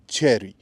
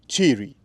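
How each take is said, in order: First: It is said like the fruit word. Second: It is not said like the fruit word. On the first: The speaker calls it wrong. "not cherry ... that's not correct in any way" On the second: The speaker calls it right. "that's the way it's supposed to be said"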